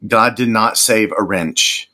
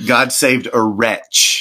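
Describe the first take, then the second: First: Wrench said with a clear N sound, wren-ch; God did not save a "wrench", stressing the wrong word; the misheard lyric. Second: "wretch" said slowly with no N, retch; God saved a "wretch", spelled out deliberately; the correct lyric. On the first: Host correcting a misheard Amazing Grace lyric, mock-quoting the wrong version. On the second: Host correcting a misheard Amazing Grace lyric, slow corrective emphasis. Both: Shown as a demonstration.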